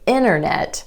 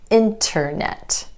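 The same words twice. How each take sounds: First: The T after the N is dropped completely. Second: The T after the N is clearly pronounced. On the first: "It's easier to say"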